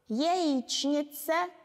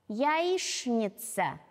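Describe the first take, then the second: First: Every letter is sounded exactly as written. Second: It is sounded in natural everyday pronunciation. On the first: "Сначала орфографически, как оно пишется" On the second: "а затем орфоэпически"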